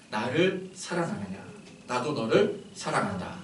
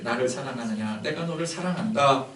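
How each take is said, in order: First: Slow, soft question of love; tender loving words. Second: Gentle loving question. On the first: Shown as a demonstration. Jesus gently asking the disciple who denied him, tender. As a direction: ask it gently, like Jesus at breakfast. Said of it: "이건 어감이 다른 거죠". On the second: Retold or imitated. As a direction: speak it as forgiving love. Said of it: "마음이 하염없이 녹아내리는".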